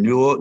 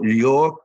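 First: Said in the usual way. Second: Mimicking a New York accent on New York. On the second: Player imitating Lombardi's New York accent. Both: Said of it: "He talked like this".

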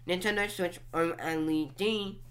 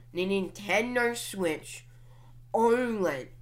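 First: "O L E D" as four separate letters; name each letter in "O L E D"; OLED spelled out. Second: "oled" said as one word, oh-led. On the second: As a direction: say "oled" like a word, not letters. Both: Shown as a demonstration. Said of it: "Some people t-, pronounce it".

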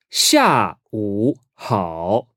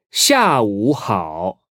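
First: "下午好" very slowly, each syllable apart; drawn-out, separated tones on "下午好"; slow teaching model. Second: "下午好" connected, still unhurried; slow but flowing "下午好"; joined-up model. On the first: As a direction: sound out "下午好" with pauses between syllables. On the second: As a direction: say "下午好" as one careful phrase. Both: Shown as a demonstration.

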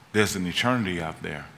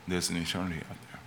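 First: Said in the usual way. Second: The repeat dropped much softer, near a hush; hushed echo. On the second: Shown as a demonstration. Preacher echoing his warning to the congregation, much softer. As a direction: let "There's an eternity out there" fall away softly. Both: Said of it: "repeated line, second dropped".

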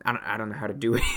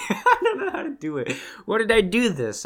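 First: Said in the usual way. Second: Real laugh, much higher pitched; giggling helplessly at the failed cork. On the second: Real, not acted. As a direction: laugh through the words at yourself.

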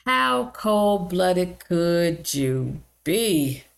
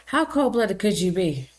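First: "How cold-blooded could you be?" drawn out very slowly; appalled. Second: Said in the usual way. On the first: Real, not acted. Condemning the caregiver, slow and appalled. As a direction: stretch every word in disbelief. Outraged rhetorical question.

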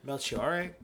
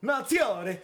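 First: Said in the usual way. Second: High, loud yell of the name; showy shout, pitched way up; gleeful yell. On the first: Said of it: "his name is mad fun". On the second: Shown as a demonstration. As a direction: belt out the name for fun. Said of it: "mad fun to fucking yell".

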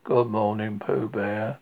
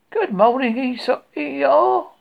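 First: Lower, dragging donkey greeting; Eeyore's glum good morning; gloomy. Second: Much higher, louder, bright little bear greeting; sunny Pooh good morning; cheerful bear. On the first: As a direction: answer the hello with no joy at all. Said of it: "said Eeyore gloomily". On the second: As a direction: call out the hello like an eager small bear. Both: Acted.

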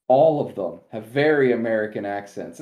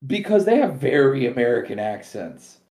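First: "ALL of them" hit hard, rest falling; stretching the claim to everyone; stress on all. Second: Leans on "have" with a long held v; "they HAVE very American accents", dwell on have; insisting they have the accents; stress on have. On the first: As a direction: punch the word all. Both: Real, not acted. Repeating the accent point.

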